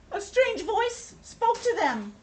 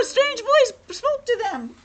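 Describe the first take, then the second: First: High, slow, astonished dread after a gasp; gasp, then draw it out high; gasping mock fright. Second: High, loud, hammed-up alarm; mock panic. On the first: Reader to child about the strange voice, gasping fright. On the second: Reader to child after wailing oh no, mock panic. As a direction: squeal it out in playful terror.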